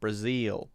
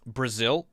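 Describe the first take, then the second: First: It has a stretched vowel, in a Southern drawl. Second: It has a short vowel, in a Northeastern accent. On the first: "more like a zeal" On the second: "instead of Brazil"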